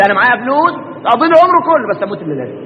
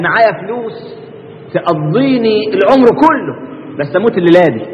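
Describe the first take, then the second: First: Embarrassed. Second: Slow, deliberate retelling of the man's words; slow quote. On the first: Embarrassed man hiding that he has nothing, rushed and trailing off. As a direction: rush it out, then swallow the last words. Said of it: "بس الراجل مكسوف يقول". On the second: Preacher quoting the rich man to the congregation, slow. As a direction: lay out the boast slowly. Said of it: "زي الراجل اللي قال لهم إيه". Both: Retold or imitated.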